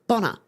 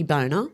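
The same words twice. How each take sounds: First: "Bonner" said as BON-ner with a short o, no long o; correct name. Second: "Boner" with a long o, BOH-ner; wrong version. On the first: Streamer correcting a name for chat, "Bonner" with short o. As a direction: say "Bonner" rhyming with "honour". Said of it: "It's double N, Bonner". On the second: Streamer showing chat the rude misreading, "Boner" with long o. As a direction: say "Boner" like the joke word. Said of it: "If it was a one N, it would be Boner". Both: Shown as a demonstration.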